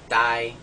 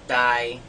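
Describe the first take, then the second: First: The tone stays flat at mid pitch. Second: The same.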